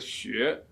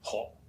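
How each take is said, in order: First: It is read with the Mandarin pronunciation. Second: It is read with the Cantonese pronunciation. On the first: Read this way it seems to break the tonal pattern. "if we read it in Mandarin" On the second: Read this way it has an entering tone and fits the pattern. "in Middle Chinese and Cantonese, it is pronounced as ho"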